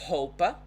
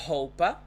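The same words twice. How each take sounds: Both takes have the same delivery.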